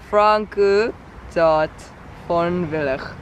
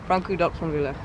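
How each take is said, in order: First: It is said very slowly. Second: It is said at a normal speed.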